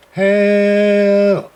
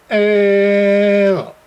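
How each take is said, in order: Both takes have the same delivery.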